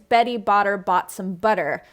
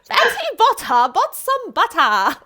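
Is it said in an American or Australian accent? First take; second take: American; Australian. First: It is said in an American accent. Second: It is said in an Australian accent.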